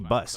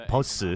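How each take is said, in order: First: The word is said with an English pronunciation. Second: The word is said with a Korean pronunciation. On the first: This is how the caster will say it on air. "because it's an English word" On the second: This is how the player asks for the name to be said. "requests that you say Bus every time you cast"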